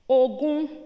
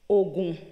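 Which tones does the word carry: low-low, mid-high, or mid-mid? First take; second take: mid-high; low-low. First: A mid tone is followed by a high tone. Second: Both syllables are said on a low tone. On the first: It means twenty or an inheritance. "with one middle tone and one high tone" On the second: It means medicine or charm. "with two low tones"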